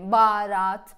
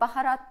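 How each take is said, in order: First: The h sound is dropped from the word. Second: The h sound is clearly pronounced in the word. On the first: "baharat böyle diyorsunuz" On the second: "Ben mesela konuşurken baharat diyorum"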